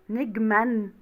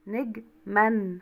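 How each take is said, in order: First: نجما read as negman with a ringing final n; final n sounded. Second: نجما broken slowly into neg... man; syllables split, n held. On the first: Teacher showing pupils the unwritten noon, نجما ending in a sounded n. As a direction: say نجما in one piece, ending on a clear -an. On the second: Teacher proving the hidden noon to pupils, نجما split slowly as neg-man. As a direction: draw نجما out in two parts, holding the final n. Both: Shown as a demonstration. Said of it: "مش أنا قرأت نون يا ولاد".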